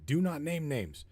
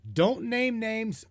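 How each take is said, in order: First: "do not name names" with NOT punched, at normal pitch; firm stress on "not" in "do not name names", level and quiet. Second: "don't name names" drawn out slowly and pitched high, NAME leaned on; high, slow insistence on "name" in "don't name names"; slow emphatic warning. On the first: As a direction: hit the word "not" in "do not name names" hard. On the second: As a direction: stretch each word of "don't name names" as a firm warning. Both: Real, not acted.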